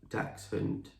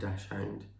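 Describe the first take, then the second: First: The word is pronounced the German way. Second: The word is pronounced the anglicized English way. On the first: The speaker calls it right. "the proper pronunciation should be like dachshund, because it comes from Germany" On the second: The speaker calls it wrong. "We've always called her a dachshund"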